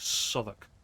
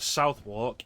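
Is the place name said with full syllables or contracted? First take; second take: contracted; full syllables. First: The name is said in a short, contracted form. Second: The name is said with full, spelled-out syllables. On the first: The speaker calls it right. "it's Southwark" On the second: The speaker calls it wrong. "you don't pronounce that as Southwark"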